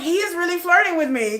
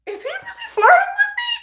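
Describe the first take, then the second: First: "is" stressed, a firm answer in a raised voice; realization. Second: Very high, tiny squealed question; incredulous squeal. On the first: Dreamer answers her own question, dawning realization. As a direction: land on "is" as the truth dawns. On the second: Dreamer wonders if he means it, incredulous squeal. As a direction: squeak it out in mock disbelief. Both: Retold or imitated.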